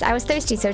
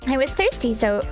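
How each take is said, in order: First: It is said in the narrator's voice. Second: It is said in a character's voice.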